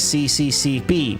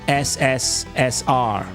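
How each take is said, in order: First: The letters are read as English 'see see see pee'. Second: The letters are read as 'ess ess ess er'. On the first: The speaker calls it wrong. "Don't pronounce this as C C C P" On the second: The speaker calls it right. "In Russian, you pronounce this as S S S R"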